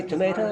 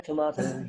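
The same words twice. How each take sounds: First: TOMATO as tuh-MAY-toh, rising. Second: TOMATO as tuh-MAH-toh, falling. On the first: Teacher quotes the you-say variant, tomato with AY. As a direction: say "tomato" with a long AY in the middle. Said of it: "You say tomato". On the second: Teacher gives the I-say variant, tomato with AH. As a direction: say "tomato" with a broad AH in the middle. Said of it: "I say tomato". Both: Shown as a demonstration.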